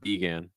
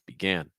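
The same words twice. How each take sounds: First: The stress is on the first syllable. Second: The stress is on the second syllable. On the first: The speaker calls it wrong. "you're stressing the first syllable ... It's not began" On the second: The speaker calls it right. "the stress is actually on the second syllable ... it's began"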